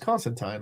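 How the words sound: It is said the overseas, non-American way. "that's the way to say it if you live over there"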